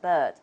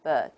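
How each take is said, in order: Both takes have the same delivery.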